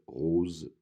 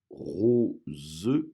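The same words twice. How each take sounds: First: The final syllable is pronounced weakly and lightly. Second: The final syllable is pronounced fully and clearly. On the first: "normalement, elle est moins accentuée" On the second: "j'ai fait exprès de prononcer la dernière syllabe"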